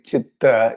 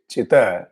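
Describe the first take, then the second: First: "chitta" with a long, doubled t; double t. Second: "chitta" said as chi-ta, with one short t; don't hold the t in "chitta", release it at once; single t. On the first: Teacher contrasting two Sanskrit words, "chitta" with geminated t. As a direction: hold the t in "chitta". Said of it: "if you remove one half the". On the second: Teacher showing the word for fire, "chitta" with single short t. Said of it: "instead of saying chitta, you say". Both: Shown as a demonstration.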